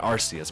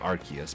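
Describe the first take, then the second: First: The c is said with an s sound. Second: The c is said with a k sound. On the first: The speaker calls it wrong. "It's actually not Arceus" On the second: The speaker calls it right. "but Arceus, because, you know, the arc in its back"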